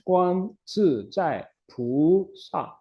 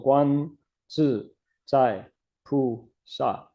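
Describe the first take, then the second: First: Each syllable is said with its distinct tone. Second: The syllables are read without distinct tones. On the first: This is how it is said in speech. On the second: This is how it is recited in chanting.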